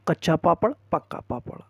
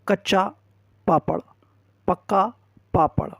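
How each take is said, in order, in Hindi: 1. शब्द तेज़ बोले गए हैं, एक-दूसरे में जुड़े हुए। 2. शब्द धीरे बोले गए हैं, एक-एक करके। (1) "अब स्पीड को थोड़ा सा तेज कर दें" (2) "धीरे धीरे प्रैक्टिस कराएं"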